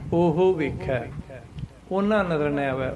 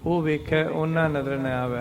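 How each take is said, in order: First: The first word is said with an h sound. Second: The first word is said without an h sound. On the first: The speaker calls it right. "ਹਾਹਾ sound ਕਰਨਾ ਆਪਾਂ, ਉਹ ਵੇਖਿਆ ਐਂ ਬੋਲਣਾ" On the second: The speaker calls it wrong. "ਉਹ ਨਹੀਂ ਕਹਿਣਾ"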